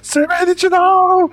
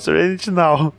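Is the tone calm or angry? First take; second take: angry; calm. First: It is shouted in an angry tone. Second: It is said in a calm tone.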